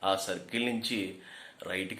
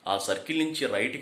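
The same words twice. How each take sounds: First: It is spoken at a slower pace. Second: It is spoken at an ordinary, normal pace. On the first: "అదే slow చేసాం అనుకోండి" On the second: "general వాయిస్తో చెప్తాం"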